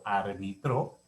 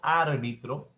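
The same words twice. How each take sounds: First: The stress is on the last syllable. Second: The stress is on the first syllable. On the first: It is a past-tense verb. "árbitro verbo en tiempo pasado" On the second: It is the noun for a referee. "árbitro sustantivo"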